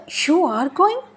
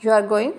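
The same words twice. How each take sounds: First: "You are going" pitched high, rising on "going"; questioning intonation. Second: Said in the usual way. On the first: Shown as a demonstration. Teacher adding emotion to a statement, questioning rise. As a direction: turn it into a question, lift "going" up. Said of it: "यहाँ पे अब हमारा लहजा सवालिया हो गया". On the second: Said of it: "ये statement है".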